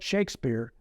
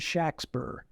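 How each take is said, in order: First: The name has a long A and long E. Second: The name has a short A and short E. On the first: It refers to the author, whoever he was. "with a long A and a long E" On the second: It refers to the man from Stratford. "with a short A and a short E"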